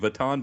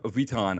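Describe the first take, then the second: First: The name has an American-sounding pronunciation. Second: The name has a French-sounding pronunciation. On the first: "in America, they call it Louis Vuitton" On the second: "I try to say it right with my, but the, the French way"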